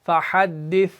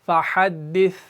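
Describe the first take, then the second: No difference in how they are said.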